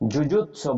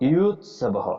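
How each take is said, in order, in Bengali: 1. শব্দটি শক্ত 'j' ধ্বনি দিয়ে শুরু হয়। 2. শব্দটি নরম 'y' গ্লাইড দিয়ে শুরু হয়। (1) "আমরা অনেক সময় পড়ি" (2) "তখন ইউৎসব পড়ব"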